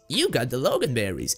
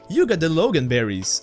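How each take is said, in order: First: It is said in Master Wushu's put-on voice. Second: It is said in an ordinary voice.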